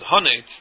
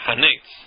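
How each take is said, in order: First: The word ends with the sound 'nitz'. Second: The word ends with the sound 'netz'. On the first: The word is one word, not an article plus a noun. The speaker calls it right. "I said hanitz" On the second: The word is read as an article plus a noun. The speaker calls it wrong. "not hanitz, because it's not a hey ha'idia"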